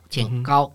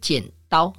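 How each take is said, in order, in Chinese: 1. 第二个音节以 'g' 音开头。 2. 第二个音节以 'd' 音开头。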